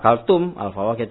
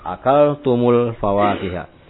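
First: The two words are said separately, without linking. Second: The words are joined with a linking 'u' sound. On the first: "Kalau mau tidak diwasalkan" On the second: "dibaca dengan wasal"

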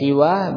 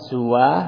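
First: The s is followed by i; short ending. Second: The s is followed by u; short ending. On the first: "bil qasri wa kasri sin" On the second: "bil qasri wa dhammi sin"

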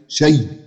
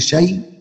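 First: The word ends the phrase with a stop. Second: The word runs straight on into the next word. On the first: "بخلاف ما أقف على كلمة شيء" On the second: "ده في حال الوصل"

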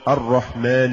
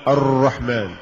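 First: The R is trilled with a light, brief tap. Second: The R is trilled with many exaggerated taps. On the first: The speaker calls it right. "إنما يقال" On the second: The speaker calls it wrong. "مع الاحتراز من المبالغة في التكرار، فلا يقال"

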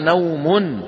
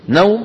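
First: The word ends with a final vowel ending. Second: The word ends on a silent final consonant. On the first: This is the original form of the word. "أصلها" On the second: This is the form used when stopping on the word. "فسكنت بسبب شو؟ الوقف"

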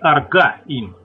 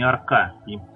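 First: The middle consonant is a voiced g sound. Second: The middle consonant is a voiceless k sound. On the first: The speaker calls it right. "правильнее говорить аргаим" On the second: The speaker calls it wrong. "а не аркаим"

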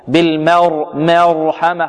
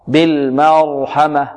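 First: The vowel after the r leans toward e. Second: The vowel after the r is fully open. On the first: The speaker calls it wrong. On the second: The speaker calls it right.

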